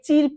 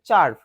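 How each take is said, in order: First: The vowel sounds like 'ir' in 'sir'. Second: The vowel sounds like 'ar' in 'car'. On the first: The speaker calls it wrong. "অনেকে অনেকে চির্প বলবে" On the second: The speaker calls it right. "এটা চার্প"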